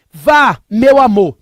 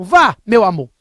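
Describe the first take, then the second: First: Slow, louder mock wife voice; imitating wife. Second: A hint of the wife, repeated; lightly voiced wife giving permission; imitating wife. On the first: Husband mimics wife telling him to go play poker, slow mock voice. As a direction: stretch it out like his wife urging him. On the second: Husband repeats his wife's permission for poker, lightly mimicked. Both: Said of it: "Tô imitando ela".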